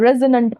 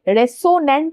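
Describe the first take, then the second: First: The middle consonant is a buzzing z sound. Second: The middle consonant is a hissing s sound. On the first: The speaker calls it right. "रेजोनेंट पढ़ना है" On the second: The speaker calls it wrong. "रेसोनेंट नहीं पढ़ना है"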